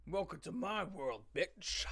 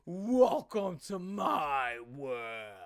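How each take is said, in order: First: Quiet Freddy Krueger quote. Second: Very slow, drawn-out, mock-sinister delivery; mocking lyric read. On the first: Retold or imitated. Quoting the lyric, a hint of Freddy Krueger. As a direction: murmur it like a horror villain. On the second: Mocking the song lyric, slow mock-menacing read. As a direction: stretch each word like a cheesy villain. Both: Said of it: "That reminded me of Freddy Krueger".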